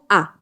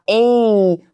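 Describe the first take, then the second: First: It is a short, weak, unstressed vowel. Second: It is a full, stressed 'ay' vowel. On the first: The speaker calls it right. "a gente pronuncia como a, porque é um som fraco" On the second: The speaker calls it wrong. "não vai dar uma ênfase e falar a, como no alfabeto"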